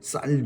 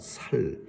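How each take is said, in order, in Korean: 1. 첫 자음은 된소리, 강한 s예요. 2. 첫 자음은 평음, 부드러운 s예요. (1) "된 소리를 못합니다" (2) "경상도 사람들은 쌀을 살이라고 합니다"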